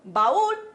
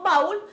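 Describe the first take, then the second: First: The two vowels fall in separate syllables. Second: The two vowels merge into one syllable. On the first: The speaker calls it right. "sino que decimos baúl" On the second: The speaker calls it wrong. "no decimos baúl"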